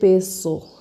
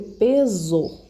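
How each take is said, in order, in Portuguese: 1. A consoante do meio tem o som de s sibilante. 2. A consoante do meio tem o som de z sonoro. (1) "Eu não vou ler peso" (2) "eu vou ler peso"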